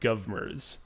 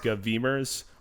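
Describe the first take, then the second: First: It is said as two syllables beginning 'gov'. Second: It is said as three syllables beginning 'gov'. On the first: "or govmers" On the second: "not govemers"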